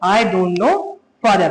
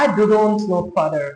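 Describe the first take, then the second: First: It is said smoothly without stuttering. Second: It is said with a stutter.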